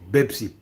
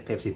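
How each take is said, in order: First: The word begins with a B sound. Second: The word begins with a P sound. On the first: This is how locals say it. "here, people said Bebsi" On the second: This is how locals do not say it. "They don't say Pepsi"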